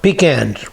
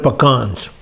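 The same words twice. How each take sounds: First: The first syllable sounds like the word 'pea'. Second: The first syllable does not sound like 'pea'. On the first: The speaker calls it wrong. "I got a can full of peas" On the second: The speaker calls it right. "Those are pecans"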